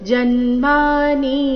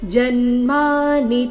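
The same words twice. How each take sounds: First: The final vowel is drawn out long. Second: The final vowel is kept short. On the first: The speaker calls it wrong. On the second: The speaker calls it right.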